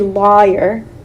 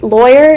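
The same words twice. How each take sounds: First: The first syllable is said clearly as 'law'. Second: The first syllable is said in the everyday way. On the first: The speaker calls it right. "is actually lawyer, law, your" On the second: The speaker calls it wrong. "that we all pronounce wrong"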